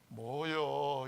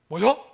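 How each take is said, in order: First: It sounds disappointed. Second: It sounds surprised.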